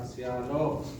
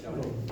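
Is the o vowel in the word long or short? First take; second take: long; short. First: The o vowel is held long. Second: The o vowel is short. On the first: The speaker calls it right. "pengucapan yang benar adalah shalom ... vokal panjang pada o-nya" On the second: The speaker calls it wrong. "bukan shalom"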